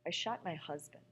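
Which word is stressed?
husband. The stress falls on the word husband.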